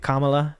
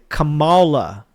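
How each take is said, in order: First: The name is said plainly, without extra emphasis. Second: The name is said with heavy, marked emphasis. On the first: "They don't say Kamala" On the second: "They say it with like emphasis"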